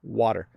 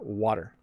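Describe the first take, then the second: First: The middle T is a soft, quick flap. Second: The same.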